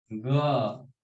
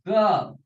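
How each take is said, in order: First: Said in the usual way. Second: ग hit high and loud; hard ग from the navel. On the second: Shown as a demonstration. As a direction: bark out ग from the belly. (ग को ऊँचा और ज़ोर से, नाभि से) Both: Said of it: "ये जो ग लिखा है".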